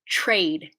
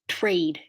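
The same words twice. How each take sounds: First: It begins with a 'ch'-like sound before 'r'. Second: It begins with a crisp 't' plus 'r'. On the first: "the T R that I normally do" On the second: "If I did a true T R"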